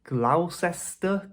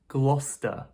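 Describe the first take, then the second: First: Every written syllable of the word is pronounced. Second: A middle chunk of the word is dropped. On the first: The speaker calls it wrong. "You might be thinking with this one" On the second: The speaker calls it right. "It's actually much shorter than you might think"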